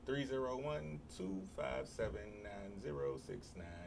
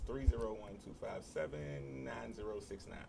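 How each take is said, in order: First: The number is said slowly. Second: The number is said at normal speed.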